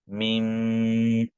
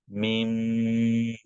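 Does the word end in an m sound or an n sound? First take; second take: m sound; m sound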